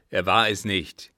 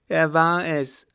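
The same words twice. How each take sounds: First: Loud, firm denial; commanding old captain. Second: High, loud contradiction; insistent madman. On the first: Father contradicting his mad son, commanding. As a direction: state it as a forceful order. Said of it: "gebot der Alte". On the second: Mad son contradicting his father, insistent. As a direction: insist in a raised, excited voice. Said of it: "behauptete der Irre". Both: Acted.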